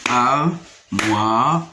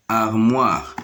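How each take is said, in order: First: "Armoire" in three separated syllables, ar-moi-re. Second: Said in the usual way. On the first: Shown as a demonstration. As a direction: pause after each beat of "Armoire". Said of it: "se compose de trois syllabes". (« Armoire » syllabe par syllabe : ar… moi… re)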